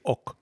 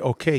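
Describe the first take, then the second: First: The word is clipped short and fast. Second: The word is said in full, two syllables. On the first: This is the abbreviated way of speaking. The speaker calls it right. "In a brief, you say ok. And it's very fast" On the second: This is the normal way of speaking. The speaker calls it wrong. "you don't say okay"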